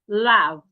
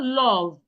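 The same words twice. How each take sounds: First: The vowel is made with unrounded, slightly open lips. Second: The vowel is made with rounded, wide-open lips. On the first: The speaker calls it right. "my mouth didn't, is not rounded? And I didn't open my mouth wide" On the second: The speaker calls it wrong. "it is not love"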